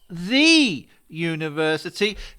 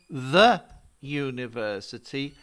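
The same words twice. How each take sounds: First: The word 'the' is said with a long 'thee'. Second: The word 'the' is said with a short 'thuh'. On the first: The speaker calls it wrong. "and not the university" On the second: The speaker calls it right. "why do we say the university"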